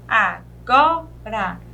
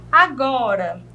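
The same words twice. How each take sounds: First: "agora" lower and slow, split a, go, ra; syllable by syllable. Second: Said in the usual way. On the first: Shown as a demonstration. Teacher separating for the class, "agora" in three beats. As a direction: put gaps inside "agora", strong go. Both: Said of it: "eu separando".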